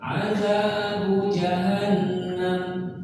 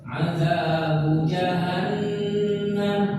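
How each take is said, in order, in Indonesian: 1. Bunyinya dipotong pendek dan dilemahkan. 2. Bunyinya ditahan dengan panjang penuhnya. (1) "Kalau berkurang azabu jahannam nggak bisa"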